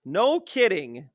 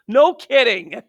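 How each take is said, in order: First: Slow, deadpan repeat; dry no kidding. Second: Loud, high, mocking emphasis; sarcastic no kidding. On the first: Acted. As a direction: say it flat and slow, unimpressed. Repeats the phrase slower and drier. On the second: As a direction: throw it out sarcastically. Sarcastic reply to teacher shortage.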